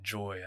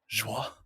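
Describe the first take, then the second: First: It is said with a plain English accent. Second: It is said with a breathy French accent. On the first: "I would just say Joy" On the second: "if I may be a breathy Frenchman for a moment"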